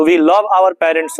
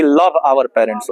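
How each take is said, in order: First: Love said with a v, slowly spelled out; correct slow demo. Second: Love said "lab" with a b, slowly; slow mistaken love ending on b; wrong slow demo. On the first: Teacher models correct love slowly. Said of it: "होगा, ना कि". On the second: Teacher shows the wrong love with b, slowly. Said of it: "ना कि". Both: Shown as a demonstration.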